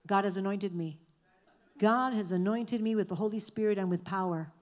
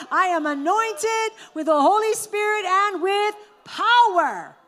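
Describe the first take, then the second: First: Said in the usual way. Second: "I am anointed with the Holy Spirit and with power" called out high, loud and slow; proclaimed with full conviction. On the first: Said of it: "Now say it like you mean it". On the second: Shown as a demonstration. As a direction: declare it slowly, high and loud, with full faith. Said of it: "One more time".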